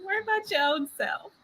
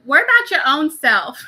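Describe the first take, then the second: First: Quick, higher, laughing through the words; laughing repeat. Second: Put-on loud, sassy brush-off from a small child; sassy little girl. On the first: Real, not acted. Repeating the girl's sassy line, laughing. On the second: Little girl telling her dad off, loud and sassy. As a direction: snap it back like a toddler who wants no help. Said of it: "She's like".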